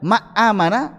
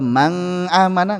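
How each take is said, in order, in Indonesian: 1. Huruf n dihilangkan sama sekali. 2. Huruf n digabung ke bunyi berikutnya. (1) "Kalau dibaca ma amana enggak enak" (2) "Idgham atau man amana enggak enak"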